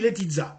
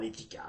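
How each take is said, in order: First: The name is said with a Serbian pronunciation. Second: The name is said with a Swiss French pronunciation. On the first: The speaker calls it right. "par là-bas, on dit Letizza" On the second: The speaker calls it wrong. "ça fait franchement vaudois"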